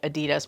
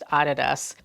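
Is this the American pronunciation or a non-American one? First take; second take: American; non-American. First: It uses the pronunciation common in the US. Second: It uses a pronunciation not common in the US. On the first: The speaker calls it wrong. "Here in the U S, we're used to pronouncing it Adidas" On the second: The speaker calls it right. "but it's actually pronounced Adidas"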